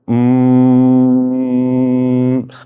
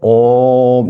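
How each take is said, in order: First: The hum sounds closed, like um. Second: The hum sounds open, like om. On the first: "혀 끝을 천정이 대고" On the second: "혀끝을 안 대고 옴 하면 입 안을 전체를 이용해서"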